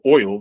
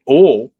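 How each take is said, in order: First: It is said in a standard accent. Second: It is said in a North Carolina accent. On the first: The speaker calls it right. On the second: The speaker calls it wrong.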